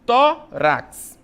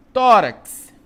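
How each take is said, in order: First: "tórax" broken into tó, rax with a gap; teacher's two-beat "tórax", tó then rax; split into syllables. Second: Said in the usual way. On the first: Shown as a demonstration. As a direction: separate "tórax" into two loud, high syllables.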